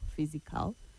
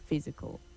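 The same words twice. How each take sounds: First: The last syllable has a full, strong vowel. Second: The last syllable has a weak, reduced vowel. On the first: The speaker calls it wrong. "So you don't say removal, physical" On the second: The speaker calls it right. "the A takes the sure, the sure sound, which is a weak sound"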